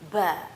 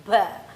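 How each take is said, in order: First: The syllable comes with an audible puff of breath. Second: The same.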